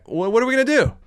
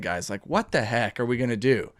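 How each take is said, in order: First: Higher, pleading exasperation; exasperated. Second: Low and much softer, deflated; disappointed, quiet. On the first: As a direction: throw the question up in frustration. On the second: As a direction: sigh it out, let down. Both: Real, not acted. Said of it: "I just get so disappointed".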